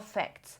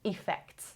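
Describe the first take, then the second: First: The first vowel is a weak schwa. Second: The first vowel is a full 'e' sound.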